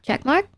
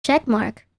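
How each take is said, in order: First: Rising check mark. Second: Falling check mark. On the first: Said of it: "Check mark on the ones I wanna keep". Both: Shown as a demonstration.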